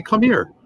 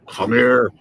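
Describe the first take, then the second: First: High, light retold summons; retold coaxing. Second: Retold yell. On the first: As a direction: call them over, pitched well up. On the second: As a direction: imitate a boss's order without full volume. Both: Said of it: "And he's yelling at me".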